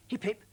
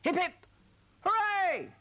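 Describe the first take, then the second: First: Said in the usual way. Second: High, loud hip hip hooray; practice cheer. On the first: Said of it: "When I shout". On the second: Shown as a demonstration. Presenter rehearsing the cheer with young viewers, loud call. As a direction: lead the children in a big cheer. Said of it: "let's have a practice".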